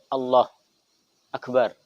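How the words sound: A brief pause separates the two words. "Atau pendek"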